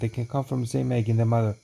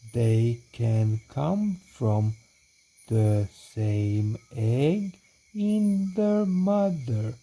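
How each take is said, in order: First: It is read very quickly. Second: It is read very slowly. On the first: "This is too fast now" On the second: "So that was way too slow"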